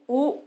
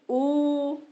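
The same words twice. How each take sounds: First: The vowel is held for two beats. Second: The vowel is held for three beats. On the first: "द्विमात्रा" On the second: "त्रिमात्रा"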